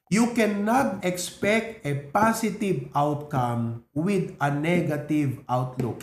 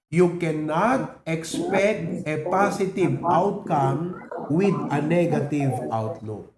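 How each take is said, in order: First: Slow, deliberate, every word leaned on; slow emphatic slogan. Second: Drawn out, chanted with the crowd; slow group recitation. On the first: Pastor drilling the key line for the church, slow and weighty. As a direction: spell it out for the congregation to repeat. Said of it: "Can we all say that together?". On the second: Pastor leading the church in unison, slow chant. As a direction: say it slowly together, like a chant. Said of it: "Ready, go". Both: Shown as a demonstration.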